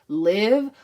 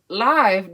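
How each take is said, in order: First: The vowel is short, as in give. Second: The vowel is long, as in five. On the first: Some other people name the perfume this way. "I've heard some people call it live" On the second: It is named like performing live on stage. "I've always called it live because J Lo is a celebrity and she be performing live"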